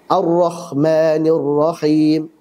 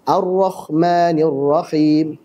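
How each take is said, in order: The two takes are said the same way.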